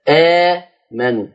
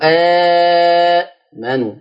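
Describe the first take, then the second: First: The first long vowel is held for two counts. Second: The first long vowel is held for four counts. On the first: "اتنين" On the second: "واربعة"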